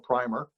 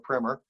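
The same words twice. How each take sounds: First: It is said the British way. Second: It is said the American way. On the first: "what the Brits would call" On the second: "We would call"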